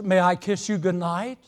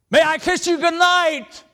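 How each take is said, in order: First: It is said at a raised, moderate volume. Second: It is said loudly, close to shouting. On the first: He wants to make sure she hears. "he raises his voice to speak" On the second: He no longer cares who hears. "He didn't care if Dad heard it or not"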